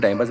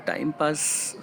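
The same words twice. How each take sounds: First: Said in the usual way. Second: Drawn-out, much softer, amused echo of "time pass"; mocking repeat. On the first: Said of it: "मेरे को हंसी आ गई थी". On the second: Repeating the accusation to viewers, amused disbelief. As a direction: savour "time pass" slowly, half-laughing in disbelief. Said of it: "हल्की सी हंसी आ गई थी मुझे".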